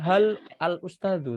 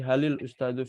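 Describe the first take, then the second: First: The article is said as a separate syllable. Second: The words run together with a linking vowel. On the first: "Harusnya hal al ustadu" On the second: "Yang di depan ngalah. Jadi halil ustadu"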